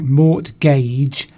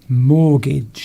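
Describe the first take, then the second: First: The word is said the way it is spelled. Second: The word is said in its usual spoken form. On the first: The speaker calls it wrong. "It looks like mortgage" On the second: The speaker calls it right. "it's actually pronounced mortgage"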